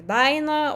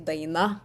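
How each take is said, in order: First: The first syllable is stressed more strongly. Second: The first syllable is stressed more lightly. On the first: This is the northern dialect form. "so I say like Daina" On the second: This is the standard form. "like in very standard way to say Daina"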